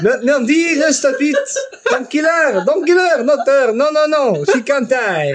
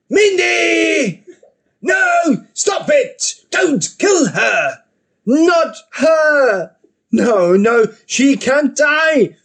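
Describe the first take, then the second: First: Put-on high, pleading French accent. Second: High, drawn-out anguished cries; desperate screaming. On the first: French Jim begs for Mindy's life, wailing French accent. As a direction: wail it with a hammed-up French accent. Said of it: "no French Jim anymore". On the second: Acted. Jim begs for Mindy's life, desperate high cries. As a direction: plead at full tilt, stretching the words.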